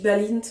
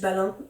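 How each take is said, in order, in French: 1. Le nom se termine par un son t audible. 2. Le nom se termine sans aucun son t. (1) "moi je dis Balint" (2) "ça se trouve c'est juste Balin"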